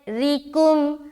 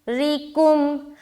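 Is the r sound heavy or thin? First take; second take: thin; thin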